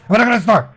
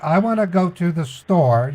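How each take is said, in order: First: It is said fast. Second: It is said slowly.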